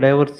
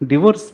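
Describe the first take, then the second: First: The first syllable has a die sound. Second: The first syllable has a short di sound. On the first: This is how it was said as a child. "చిన్నప్పుడు అన్నాడు" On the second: This is how it is said after getting educated. "ఇప్పుడు వాడు PhD అయిందంటే ఏమంటున్నాడు?"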